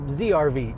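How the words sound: The name is said the American way.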